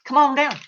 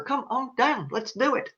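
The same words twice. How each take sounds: First: Said in the usual way. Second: Softer game-show host call, lightly voiced; a hint of the host's come-on-down; playful quiet imitation of the announcer; Bob Barker call. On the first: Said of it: "waiting for you to go". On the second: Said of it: "So like Bob Barker".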